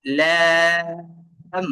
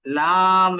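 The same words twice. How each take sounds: First: লাম with a long, level, held vowel; long sustained লাম, recitation style; drawn-out letter name. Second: লাম with a wide open aa, held; open-mouthed demo. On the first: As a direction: stretch the vowel in লাম, then close on m. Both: Shown as a demonstration. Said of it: "এটা মূলত মুখ খুলে বলতেছি".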